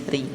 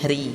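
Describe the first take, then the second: Both takes have the same delivery.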